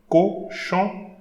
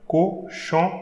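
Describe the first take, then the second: The two takes are said the same way.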